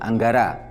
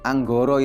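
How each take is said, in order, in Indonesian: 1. Vokal setelahnya dilafalkan sebagai a. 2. Vokal setelahnya dilafalkan sebagai o. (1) "Sebelumnya tidak mengenal vokal O" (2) "Anggoro itu setelah Sultan Agung"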